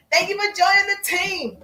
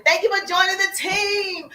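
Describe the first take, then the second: First: Higher, bright welcoming voice; higher, beaming welcome line; bright announcer greeting. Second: Cheery greeting. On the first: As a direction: sing out a welcome to new members. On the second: Demonstrating a welcome greeting. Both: Shown as a demonstration.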